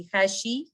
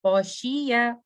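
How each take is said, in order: First: Said in the usual way. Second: "खाशिया" with a heavy throaty kha. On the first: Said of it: "मैं ऐसे नहीं पढ़ूंगी". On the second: Shown as a demonstration. Teacher giving the correct heavy reading. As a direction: raise the back of the tongue on "खाशिया". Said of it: "तो मैं पढ़ूंगी खा".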